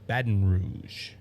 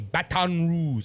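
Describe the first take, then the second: First: It is pronounced the way locals say it. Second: It is pronounced the way outsiders say it. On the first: The speaker calls it right. "it's Baton Rouge" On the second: The speaker calls it wrong. "Like they say Baton Rouge"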